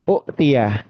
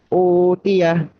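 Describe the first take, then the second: First: A short vowel is cut off by a glottal stop. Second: The first vowel is held long, without a stop. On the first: This is the word's underlying original form. "aslinya adalah uktia" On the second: This is how the word is actually read. "dibacanya memang dua harokat"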